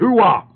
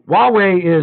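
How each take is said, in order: First: The word starts with a clear H sound. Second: The word starts without an H sound. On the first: "if I don't say the word with an H in it" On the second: "I said it properly there"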